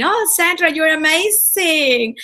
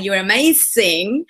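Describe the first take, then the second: First: A much higher, slow mock Spanish accent on "amazing"; mocking her Spanish accent. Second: Slow Spanish-accented "You're amazing" with a rising end; own Spanish accent. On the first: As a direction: tease her Spanish accent, high and drawn out. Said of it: "making fun of my accent". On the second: Shown as a demonstration. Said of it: "I would say it like that".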